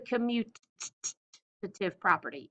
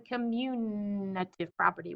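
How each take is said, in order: First: The word is said without an added N sound. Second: The word is said with an added N sound. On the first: The speaker calls it right. "look at the spelling of this word. Do you guys see that T right there?" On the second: The speaker calls it wrong. "It is not the commutative property with an N"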